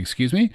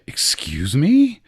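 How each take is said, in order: First: It is asked as a request to repeat. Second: It is said in an offended tone.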